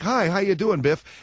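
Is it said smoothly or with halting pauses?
smoothly. It is said smoothly, like natural conversation.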